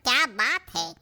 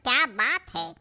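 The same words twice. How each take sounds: First: It is said as admiring praise. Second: The same.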